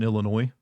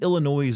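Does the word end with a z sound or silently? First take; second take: silent; z sound. First: The word ends with no final consonant. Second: The word ends with a z sound. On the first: The speaker calls it wrong. "Don't put an S on the end. S is silent" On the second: The speaker calls it right. "I think Illinois just sounds better"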